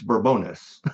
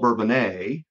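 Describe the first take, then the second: First: The name is said the way locals say it. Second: The name is said the outsider, French-like way. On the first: This is how the town's residents say it. "if you talk to the locals, it's" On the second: This is how people who are not from the town say it. "which some call"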